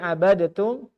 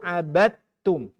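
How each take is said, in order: First: A vowel is heard between d and t. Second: The d runs straight into the t.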